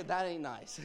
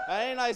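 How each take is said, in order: First: Said in the usual way. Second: Louder, teasing "That ain't nice"; mock protest. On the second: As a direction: call out "That ain't nice" in playful outrage. Teasing about the Berkeley rivalry.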